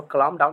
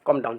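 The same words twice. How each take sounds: First: काम डाउन said as kalam down, sounding the L; wrong way, काम डाउन with the L said aloud; L pronounced. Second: काम डाउन said kom down, with the L silent. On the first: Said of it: "इसको काम डाउन नहीं बोलेंगे". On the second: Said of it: "एल को हटा दीजिए". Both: Shown as a demonstration.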